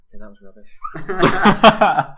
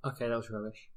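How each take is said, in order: First: Slow, drawn-out sign-off; a drawn-out closing verdict; slowed last word. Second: Much softer, lower mumbled verdict; a mumbled, deflated last word; deadpan sign-off. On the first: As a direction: stretch each word out for the final time. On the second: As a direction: drop it flat and quiet. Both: Pretend. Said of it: "final word of the show".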